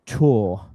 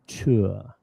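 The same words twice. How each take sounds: First: The vowel is a long O sound. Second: The vowel glides toward a neutral schwa sound. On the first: This is how younger people say it now. "We will actually use long O vowel" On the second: It sounds old-fashioned and upper-class. "if you want to sound like the Queen, you can use this mixed vowel"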